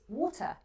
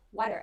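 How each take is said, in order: First: A British accent with a clear, hard T. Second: An American accent with a barely heard T. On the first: "If you have a strong British correct accent" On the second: "if you have an American relaxed accent, it would be water, water, and the T is just almost invisible"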